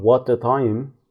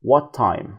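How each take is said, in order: First: "what time" with both T sounds said apart; "what time" pronounced with a separate T at the end of "what" and at the start of "time"; careful double T. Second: "what time" with the two T sounds merged into one; "what time" said as "wha-time", one T only; single T. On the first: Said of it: "مش بنقول what time". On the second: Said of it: "بننطقهم تي واحدة بس". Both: Shown as a demonstration.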